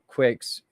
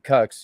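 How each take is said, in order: First: It begins with a kw sound, like quick. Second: It begins with a plain k sound, like cuts. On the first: This is how the makers say the name. "That's the way we pronounce it" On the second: This is how some other people say the name. "people say Cux"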